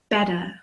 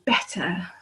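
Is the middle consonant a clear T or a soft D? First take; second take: soft D; clear T. First: The middle consonant sounds like a soft D. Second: The middle consonant is a clear T. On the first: "It sounds more like a D" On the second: "in England, we always pronounce the T sound"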